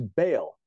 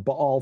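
First: The name is said the everyday popular way. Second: The name is said the scholarly way.

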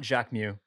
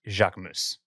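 First: The name ends without an S sound. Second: The name ends with an S sound. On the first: The speaker calls it wrong. "it's not Jacques Mew" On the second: The speaker calls it right. "it's Jacques Mousse"

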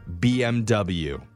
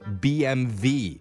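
First: The last letter is said as English 'double-u'. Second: The last letter is said as German 'vay'. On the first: The speaker calls it wrong. "the last letter isn't pronounced W" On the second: The speaker calls it right. "we should be pronouncing it as BMV, like how Germans say it"

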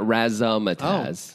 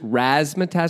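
First: The word is said with an extra inserted sound. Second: The word is said without an extra inserted sound. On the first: The speaker calls it wrong. "not razzmatazz. ... I always put an in there" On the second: The speaker calls it right. "To be clear, it's razzmatazz"

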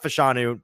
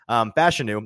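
First: The first part does not sound like fashion. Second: The first part sounds like the word fashion. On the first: The speaker calls it wrong. "not Fashanu" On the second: The speaker calls it right. "It's like fashion"

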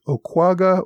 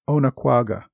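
First: The name is said with three syllables. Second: The name is said with four syllables. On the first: "making it a three-syllable word" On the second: "the four syllables I used"

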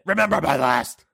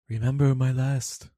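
First: It is screamed loudly. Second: It is said calmly and quietly.

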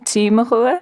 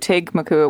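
First: The name is said without a hard G sound. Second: The name is said with a hard G sound. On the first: "they're calling it" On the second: "with a hard G"

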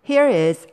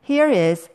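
Both takes have the same delivery.

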